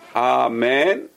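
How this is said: The first vowel is a long ah.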